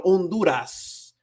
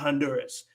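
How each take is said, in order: First: Honduras as slow on-DOO-ras; Spanish silent H. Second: Honduras as han-DUR-us with sounded H; English mispronunciation. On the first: Teacher corrects the name, Honduras as on-DOO-ras. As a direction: drop the H in Honduras, Spanish vowels. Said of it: "la H porque es muda". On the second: Teacher shows what it's not, Honduras with English H. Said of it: "and it's not Honduras". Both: Shown as a demonstration.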